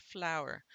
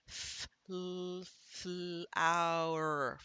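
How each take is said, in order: First: Said in the usual way. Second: "F, l, flower" slowly blended from single sounds; sounded out. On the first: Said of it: "I decoded it". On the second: Shown as a demonstration. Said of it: "We're gonna try that s-, common sound".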